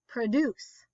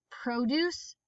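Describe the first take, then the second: First: Produce as pruh-DUCE; stress on second syllable. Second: Produce as PRO-duce; stress on first syllable. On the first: Teacher reading word list aloud, stress on second syllable. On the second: Teacher reading word list aloud, stress on first syllable. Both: Shown as a demonstration. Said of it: "both of the different pronunciations".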